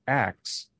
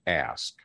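First: "axe" with the k sound before the s; swapped consonants. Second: Said in the usual way. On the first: Shown as a demonstration. Linguist showing callers the variant pronunciation, "axe" ending in ks. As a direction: pronounce "axe" in place of ask, ending in ks. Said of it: "began to use the pronunciation". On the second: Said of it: "instead of ask".

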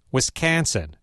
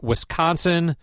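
First: "Wisconsin" with a flat, fronted A, as in "cat"; exaggerated Wisconsin accent. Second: Said in the usual way. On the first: Shown as a demonstration. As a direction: overdo the local vowel in "Wisconsin": wis-CAN-sin. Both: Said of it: "I'm exaggerating a little".

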